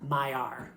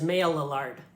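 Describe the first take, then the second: First: It is said with a French pronunciation. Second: It is read out with English spelling sounds. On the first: The speaker calls it right. "in France, people pronounce this word Maillard" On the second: The speaker calls it wrong. "that clearly says Maillard"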